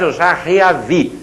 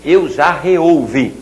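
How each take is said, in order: First: Slow wrong-form demo. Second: Slow correct demo. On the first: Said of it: "Não me diga mais". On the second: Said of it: "Vai dizer e vai escrever". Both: Shown as a demonstration.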